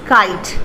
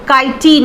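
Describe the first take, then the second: First: The word ends cleanly on the T. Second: An extra vowel follows the final T. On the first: The speaker calls it right. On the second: The speaker calls it wrong.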